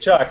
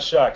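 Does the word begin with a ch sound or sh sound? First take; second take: ch sound; sh sound. First: The word begins with a ch sound. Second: The word begins with a sh sound. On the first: The speaker calls it right. "It's Chuck" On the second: The speaker calls it wrong. "not Shuck"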